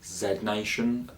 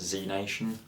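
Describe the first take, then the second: First: Z is said 'zed', British style. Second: Z is said 'zee', American style.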